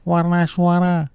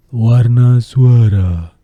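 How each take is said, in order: First: Warna suara said high and slowed; high character voice demo; high voice colour. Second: Warna suara very loud and slow; loud slow big voice; loud voice colour. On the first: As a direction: lift the voice high. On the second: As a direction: boom it out slowly. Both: Shown as a demonstration.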